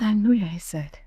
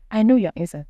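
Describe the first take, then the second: First: Said in the usual way. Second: Insistent repeat. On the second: Retold or imitated. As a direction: press it home this time. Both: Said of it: "She said".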